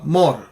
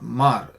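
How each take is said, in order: First: The vowel is a rounded 'oh' sound. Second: The vowel is an open 'ah' sound. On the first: The speaker calls it right. "you say uh, more" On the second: The speaker calls it wrong. "not mar"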